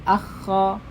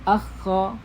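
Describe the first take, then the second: The two takes are said the same way.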